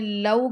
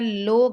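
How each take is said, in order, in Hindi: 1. स्वर 'aw' की तरह फिसलता है। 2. स्वर सादा 'o' है। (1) "आपने लऊ करके पढ़ना है" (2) "लो करके नहीं पढ़ना"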